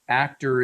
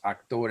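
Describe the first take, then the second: First: It is pronounced with English sounds. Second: It is pronounced with Spanish sounds. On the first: "in English" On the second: "in Spanish"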